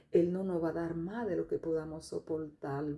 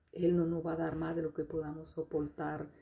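The two takes are said the same way.

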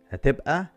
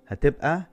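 Both takes have the same delivery.

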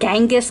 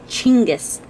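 First: The name begins with a j sound. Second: The name begins with a ch sound. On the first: The speaker calls it wrong. "we Americans call it Genghis Khan. We are pronouncing it and spelling it completely wrong" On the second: The speaker calls it right. "it is Chinggis, C-H-I-N-G-I-S"

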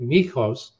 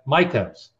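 First: The name is said with a Greek pronunciation. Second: The name is said with an American pronunciation. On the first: This is the original form used in the home country. "which is actually the way you would say it if you were in Greece" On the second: This form hides the family's ethnic origin. "he said Mikos"

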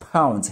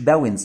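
First: The word begins with a voiceless p sound. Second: The word begins with a voiced b sound. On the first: The speaker calls it right. "لا pounds هنا البي" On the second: The speaker calls it wrong. "مش باونز"

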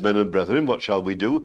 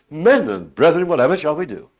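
First: The question is said in a calm, even voice. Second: The question is said with anguished, urgent feeling. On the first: "You can say it calmly" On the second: "with the sense it surely must have"

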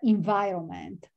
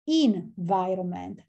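First: The first syllable does not sound like 'in'. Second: The first syllable sounds like 'in'. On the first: The speaker calls it wrong. "before I pronounce environment" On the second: The speaker calls it right. "the right pronunciation is environment"

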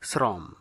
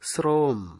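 First: It uses the common colloquial pronunciation. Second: It uses the standard grammatical pronunciation. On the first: The speaker calls it wrong. "অনেকে উচ্চারণ করে থাকেন শ্রম" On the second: The speaker calls it right. "আসলে সঠিক উচ্চারণ হবে শ্রম"

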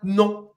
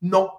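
First: It is said in a very condescending tone. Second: It is said in a plain, neutral tone.

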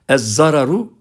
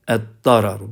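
First: The word starts with a doubled z sound. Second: The word starts with a doubled d sound. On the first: This follows the Turkish borrowing. The speaker calls it wrong. "Ez-zararu okumak yanlıştır" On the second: This is how a native speaker says it. The speaker calls it right. "Bir Arap böyle okuyor"

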